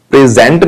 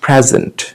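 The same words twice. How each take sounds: First: "present" as pre-ZENT with a full second syllable; wrong stress. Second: "present" as PREZ-unt with light ending; first-syllable stress. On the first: Retold or imitated. Teacher rejecting the wrong form, "present" as pre-ZENT. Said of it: "present नहीं". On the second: Shown as a demonstration. Teacher giving the correct form, "present" as PREZ-unt. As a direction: punch PREZ in "present", relax the rest. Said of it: "पहले वाले part पे हमें stress डालना".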